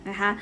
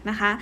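The two takes are said the same way.

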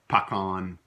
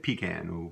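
First: It is said the southern US way. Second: It is said the northern US way.

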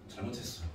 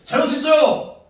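First: It is said slowly in a low, sad voice. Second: It is said brightly and cheerfully.

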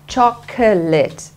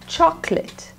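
First: The word is said with three syllables. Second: The word is said with two syllables. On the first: The speaker calls it wrong. "Not chocolate" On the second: The speaker calls it right. "It's two syllables"

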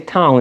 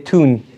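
First: The vowel is a gliding 'ow' sound. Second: The vowel is a long 'oo' sound. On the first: "we say town" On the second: "they say toon"

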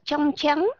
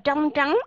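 First: The initial tr sounds like a plain ch. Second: The initial tr is a retroflex tr sound. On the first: This is the northern way of speaking. "Âm tr người miền Bắc đọc là chờ" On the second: This is the southern way of speaking. "người miền Nam đọc là trờ"

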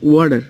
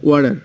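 First: It is said in an American accent. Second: The same.

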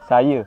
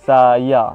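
First: The final vowel is the standard Malay vowel. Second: The final vowel is a clear open a. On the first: "bahasa standard" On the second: "kalau dalam lorak Kedah"

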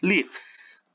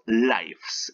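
First: The vowel is a short 'i' sound. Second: The vowel is an 'eye' sound. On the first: It is the verb meaning someone resides. "Si es que está como verbo, nosotros pronunciaremos lives" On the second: It is the plural noun meaning more than one existence. "Y si está como sustantivo, nosotros pronunciaremos lives, es decir, vidas"

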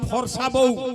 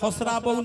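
First: The r sound comes before the s. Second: The r sound comes after the s. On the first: The speaker calls it right. "আরে কহে যে ফরসা বউ" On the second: The speaker calls it wrong. "হারামজাদা ফসরা বউ না ফরসা বউ?"

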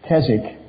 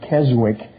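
First: The name is said the way locals say it. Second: The name is said the way Americans say it. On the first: The speaker calls it right. "but it's" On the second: The speaker calls it wrong. "Sometimes they pronounce it"

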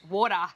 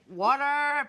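First: It is said with an Australian accent. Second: It is said with an American accent.

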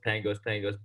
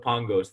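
First: The name is given an American pronunciation. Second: The name is given a European pronunciation. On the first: "that's what I always went by growing up" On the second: "I guess that's the European accent when you say it like that"

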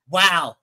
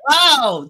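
First: The wow sounds indignant and offended. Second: The wow sounds excited and happy. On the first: The speaker is outraged by what was said. "how dare you say that" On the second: The speaker is genuinely impressed. "an actual enthusiastic wow"

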